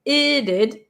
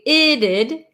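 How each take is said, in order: First: The t becomes a quick flap sound. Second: The t becomes a quick flap sound.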